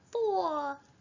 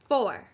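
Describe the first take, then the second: First: It is said in a high, babyish voice. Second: It is said in a normal speaking voice.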